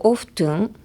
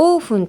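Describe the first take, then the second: First: "オフトゥン" with the T sounded; pronounced T. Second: "オーフン" with the T dropped; silent T. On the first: Host comparing two pronunciations, T sounded in "オフトゥン". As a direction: say "オフトゥン" keeping the T. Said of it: "このTがサイレントか否か". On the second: Host comparing two pronunciations, silent-T "オーフン". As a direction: say "オーフン" with no T sound. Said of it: "がイギリス英語とアメリカ英語". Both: Shown as a demonstration.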